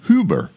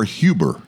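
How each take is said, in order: First: Huber said as HOO-ber; pronounced HOO-ber. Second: Huber said as HYOO-ber; pronounced HYOO-ber. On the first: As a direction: say Huber with a plain oo, no y sound. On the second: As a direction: say Huber with a y glide after the H. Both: Shown as a demonstration. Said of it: "however you pronounce H U B E R".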